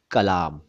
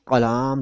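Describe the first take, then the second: First: कलाम slowly as "kalaam", simple k; correct plain k. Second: कलाम wrongly said as "qalaam"; mistaken dotted q. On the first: Teacher correcting the president's name, कलाम slow with plain k. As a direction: start कलाम with an ordinary k, no q. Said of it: "जो कि नहीं है". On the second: Teacher quoting a common error in a name, कलाम with q for k. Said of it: "क के नीचे नुक्ता लगा देते हैं". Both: Shown as a demonstration.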